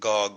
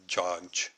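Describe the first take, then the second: First: The name begins with a hard G sound. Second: The name begins with a J sound. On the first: "There is no g sound" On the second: "Gog would be pronounced uh, Joj"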